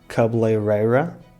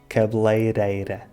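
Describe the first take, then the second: First: The r sounds like an English r. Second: The r is a quick tongue tap. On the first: The speaker calls it wrong. "em vez de pronunciares R" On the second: The speaker calls it right. "pronuncias R como o D de daddy"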